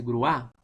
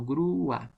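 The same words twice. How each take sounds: First: "grúa" run together as gruÁ; wrong stress on A. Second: "grúa" split as GRÚ-a; "grúa" with a long, intense U; strong stressed U. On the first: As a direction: say "grúa" as one syllable, weight on the final a. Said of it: "no se dice grúa". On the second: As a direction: lean hard on the U of "grúa", then a separate a. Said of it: "la vocal cerrada tiene que sonar mucho más". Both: Shown as a demonstration.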